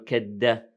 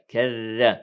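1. الحرف بعد ka هو صوت d. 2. الحرف بعد ka هو صوت dh مرقق. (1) "لا نقول كد" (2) "إنها ذال"

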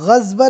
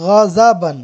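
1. बीच के व्यंजन के बाद कोई स्वर नहीं आता। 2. बीच के व्यंजन के बाद एक छोटा 'a' स्वर आता है। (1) "गज़बन नहीं आ रहा है" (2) "बल्कि गज़बन ... ज़ाद पर भी ज़बर"

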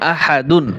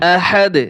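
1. শব্দটি শেষে -উন ধ্বনি দিয়ে শেষ হয়। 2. শব্দটি -উন ছাড়া ছোট করে থেমে যায়।

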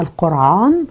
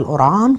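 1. يُنطق الاسم بالفصحى. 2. يُنطق الاسم بالعامية المصرية. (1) "زي ما قلت بالفصحى القرعان" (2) "بالعامية القرعان"

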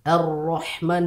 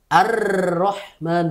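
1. R digetarkan sebentar. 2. R digetarkan lama.

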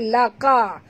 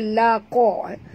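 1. Bunyi q tipis dan ringan. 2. Bunyi q tebal dan berat. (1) "Jangan baca laqa" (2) "Qa tebal. Baca laqa"

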